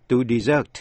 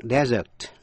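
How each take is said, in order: First: "desert" as di-ZERT, stressed on the second syllable; verb pronunciation. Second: "desert" as DEZ-ert, stressed on the first syllable; noun pronunciation. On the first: Teacher repeating the verb for listeners, "desert" said di-ZERT. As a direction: say the verb "desert" with weight on the end. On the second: Teacher correcting a misreading, "desert" said DEZ-ert. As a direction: say the noun "desert" with a short e up front. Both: Shown as a demonstration. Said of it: "Nay xin lặp lại".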